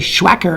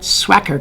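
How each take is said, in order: First: The word begins with a 'shw' sound. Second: The word begins with an 'sw' sound. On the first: The speaker calls it wrong. "I used to say Schwacker, and a lot of people corrected me" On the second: The speaker calls it right. "now I say it right, because it makes that sound swack"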